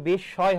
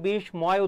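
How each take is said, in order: First: No m; a doubled sh sound with nasal vowel. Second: An m sound is pronounced after the s. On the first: The speaker calls it right. "এটা হবে বিস্ময় হবে, কি হবে বিশ ছয়" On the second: The speaker calls it wrong. "অনেকে বিস্ময় উচ্চারণ করে"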